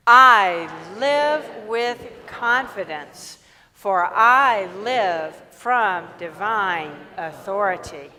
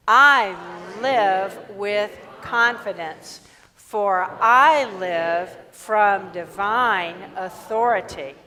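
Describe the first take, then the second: First: Loud, slow affirmation leaning on "I"; stress on I. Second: Loud, slow affirmation leaning on "live"; stress on live. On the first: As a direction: proclaim slowly, punching the opening "I". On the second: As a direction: proclaim slowly, hitting "live". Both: Acted.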